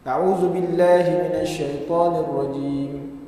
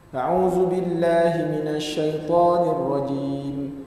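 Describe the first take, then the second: First: It is recited quickly. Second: It is recited at a moderately quick pace. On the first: "Hadar ni bacaannya laju" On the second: "tadwir ni cepat sikit"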